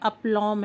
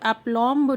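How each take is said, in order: First: The word ends with an m, b silent. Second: The word ends with a pronounced b sound. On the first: The speaker calls it right. "इसमें बी silent है" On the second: The speaker calls it wrong. "इसको एप्लॉम्ब नहीं बोलते हैं"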